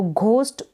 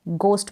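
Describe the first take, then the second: First: घोस्ट said with a breathy aspirated gh, the wrong way; wrong pronunciation. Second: गोस्ट said with a plain unaspirated g; correct pronunciation. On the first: Teacher showing students the wrong reading of ghost, aspirated. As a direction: demo the mistaken aspirated घोस्ट. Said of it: "घोस्ट पढ़ना गलत हो जाता है". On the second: Teacher giving students the correct reading of ghost, plain g. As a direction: clean hard g in गोस्ट, no breath after it. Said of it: "correct जो pronunciation है". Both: Shown as a demonstration.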